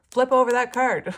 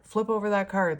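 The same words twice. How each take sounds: First: Much higher and louder, urgent command; insistent spirit guide. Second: Said in the usual way. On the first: Retold or imitated. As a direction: bark it as an impatient guide. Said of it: "one of them was like". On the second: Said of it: "I, I was hearing".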